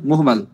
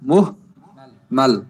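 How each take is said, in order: First: The word is said smoothly without any break. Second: The word is split with a break between syllables.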